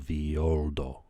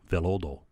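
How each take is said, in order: First: The double L is sounded like a Y. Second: The double L is sounded like an L. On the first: "two L's is a Y, right? So" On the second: "in English"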